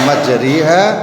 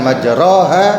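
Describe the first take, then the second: First: The vowel after r is a full 'ee' sound. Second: The vowel after r is a full 'o' sound. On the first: "Bukan majriha" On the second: "bukan majroha"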